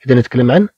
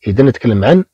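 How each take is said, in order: Both takes have the same delivery.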